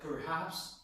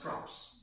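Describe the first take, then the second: First: Both syllables are pronounced in full. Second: The word is squeezed into one syllable. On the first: "like perhaps becomes props" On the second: "becomes props"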